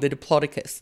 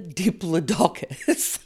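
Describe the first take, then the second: First: The main stress falls on the 'plod' syllable. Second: The main stress falls on the 'doc' syllable. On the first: The speaker calls it right. "Don't get it wrong, the Diplodocus" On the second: The speaker calls it wrong. "not the Diplodocus. Don't get it wrong"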